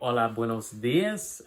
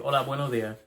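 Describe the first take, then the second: First: The final S sounds are clearly pronounced. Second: The final S sounds are dropped. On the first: "Instead of saying" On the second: "not using the S"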